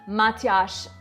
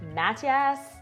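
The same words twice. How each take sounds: First: The name is pronounced the Czech way. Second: The name is pronounced the anglicized way. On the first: The speaker calls it right. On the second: The speaker calls it wrong.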